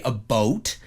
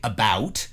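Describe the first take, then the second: First: "a boat" for "about"; Canadian "a boat". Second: Said in the usual way. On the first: Shown as a demonstration. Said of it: "Now, I don't say". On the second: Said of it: "I say".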